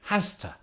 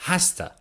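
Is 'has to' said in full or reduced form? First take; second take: reduced; reduced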